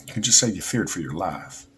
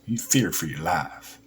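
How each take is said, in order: First: Said in the usual way. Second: Put-on southern American accent. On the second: Shown as a demonstration. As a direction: imitate a Southerner, flattening "life" toward "laff". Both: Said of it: "This is my southern accent".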